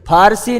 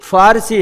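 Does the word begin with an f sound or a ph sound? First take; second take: ph; f. First: It begins with an aspirated p sound. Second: It begins with an f sound. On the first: The speaker calls it wrong. "फारसी नहीं है" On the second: The speaker calls it right. "फारसी है"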